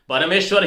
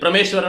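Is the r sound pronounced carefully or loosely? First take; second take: carefully; loosely. First: The r sound is pronounced carefully. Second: The r sound is pronounced loosely. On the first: The speaker calls it right. "परमेश्वर ही बोलना चाहिए" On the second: The speaker calls it wrong. "परमेश्वर नहीं बोलना चाहिए"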